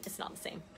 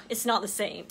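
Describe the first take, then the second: First: Whispered repeat of the phrase. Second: Said in the usual way. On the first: Real, not acted. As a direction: drop it to a whisper.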